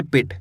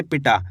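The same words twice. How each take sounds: First: पिट ending short on ट, no long vowel; simple पिट. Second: पिटा with the final टा held long; drawn-out टा. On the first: Teacher reading it without the vowel sign, पिट cut short at ट. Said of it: "simple पढ़ेंगे". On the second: Teacher showing the added vowel sign, final टा of पिटा drawn out. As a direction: stretch the टा at the end of पिटा. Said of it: "टा को खींच देते". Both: Shown as a demonstration.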